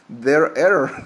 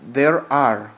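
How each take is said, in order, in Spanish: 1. Las dos palabras se juntan en una sola forma contraída. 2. Las dos palabras se dicen completas y por separado. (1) "sonaría mal, sonaría hasta chistoso" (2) "Y quedaría normal"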